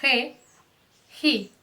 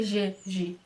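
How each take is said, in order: First: "re, ri" with a throaty h at the start; raspy Spanish G. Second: "G, gi" with Portuguese zh; wrong soft G. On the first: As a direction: push air through the throat on "re, ri". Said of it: "vai ser". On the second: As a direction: buzz "G, gi" like zh in measure. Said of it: "Ó, não vai ser". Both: Shown as a demonstration.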